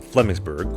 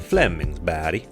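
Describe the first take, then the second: First: It is said with an English accent. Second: It is said with a Swedish accent.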